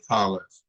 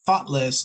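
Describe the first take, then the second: First: Thoughtless said with a weak th; thoughtless, the learner's faulty version; mistaken th. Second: Thoughtless with a voiceless th, tongue between the teeth; correct th. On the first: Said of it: "they might say". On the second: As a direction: thoughtless said properly. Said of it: "instead of saying thoughtless". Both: Shown as a demonstration.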